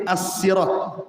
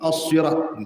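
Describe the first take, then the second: First: It begins with a plain, light s sound. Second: It begins with a heavy, emphatic s sound. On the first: This is the original form of the word. "asalnya sin" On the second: This form arose because the original was hard to say. "jadi ... gitu"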